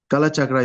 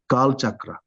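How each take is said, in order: First: The first word ends in a vowel sound. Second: The first word ends in a consonant sound. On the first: The speaker calls it wrong. "Kala Chakra is also wrong" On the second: The speaker calls it right. "It's Kal Chakra"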